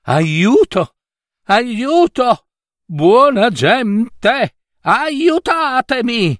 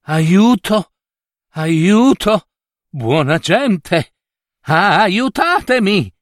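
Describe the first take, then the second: First: Much higher, desperate slow yell for help; shouting as loud as he can. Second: Raised, pleading cry for help, slow on aiutatemi; wounded prince calls out into the woods; calling for help. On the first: Prince hears a noise and screams louder, desperate high yell. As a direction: scream for rescue with all your strength. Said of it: "gridò più forte che poté". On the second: Wounded prince calling passersby for help, raised pleading cry. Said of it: "a chiamare soccorso". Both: A narrator's reading.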